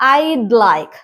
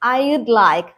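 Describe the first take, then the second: First: Would is shortened to a d sound. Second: The word would is said in full.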